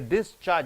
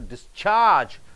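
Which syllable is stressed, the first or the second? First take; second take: first; second. First: The stress is on the first syllable. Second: The stress is on the second syllable. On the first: It is used as a noun. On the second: It is used as a verb meaning to leave.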